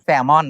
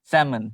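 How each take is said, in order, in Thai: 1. คำนี้มีเสียง L 2. คำนี้ไม่มีเสียง L (1) "ไม่แซลมอน" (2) "แซมอนถูกต้อง"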